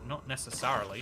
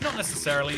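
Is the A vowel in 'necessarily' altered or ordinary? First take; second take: altered; ordinary. First: The A vowel in necessarily sounds altered. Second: The A vowel in necessarily sounds ordinary.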